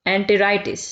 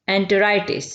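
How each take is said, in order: Both takes have the same delivery.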